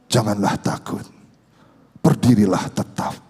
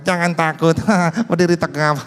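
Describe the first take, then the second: First: It is said in a wise, convincing voice. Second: It is said in a silly, unconvincing voice.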